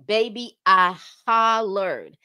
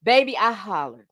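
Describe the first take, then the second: First: Slow, louder drawn-out hollered; drawn-out emphasis. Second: Said in the usual way. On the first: Real, not acted. Telling viewers how hard she laughed, slow loud drawn-out emphasis. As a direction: stretch out hollered, leaning in loud.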